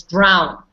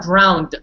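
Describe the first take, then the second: First: "drown" ending on the n, falling; correct DROWN. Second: "drowned" with the added final d; wrong DROWNED. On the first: Teacher gives the right word, correct drown. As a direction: say drown with no added d. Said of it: "It's drown". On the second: Teacher corrects someone who says it, wrong drowned. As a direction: say drowned closing on "nd", the wrong form. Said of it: "No, it's not drowned". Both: Shown as a demonstration.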